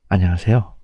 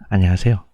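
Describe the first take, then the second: First: It is said in an exaggerated, deep, greasy voice. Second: It is said in an exaggerated, deep, greasy voice.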